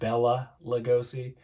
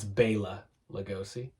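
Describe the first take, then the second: First: The first name starts with a short 'bell' vowel. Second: The first name starts with a long 'bay' vowel. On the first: The speaker calls it wrong. "It always pisses me off when people pronounce it Bella Lugosi" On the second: The speaker calls it right. "it's Bela Lugosi"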